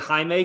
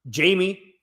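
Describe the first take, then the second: First: The name is pronounced in the Spanish way. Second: The name is pronounced in the English way. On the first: "because that's how the uh, Mexicans spell Jaime here" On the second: "Is that how you say it?"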